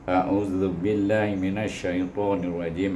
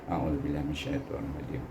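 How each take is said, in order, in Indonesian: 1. Dibaca dengan suara penuh dan terdengar jelas. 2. Dibaca pelan, hampir seperti berbisik.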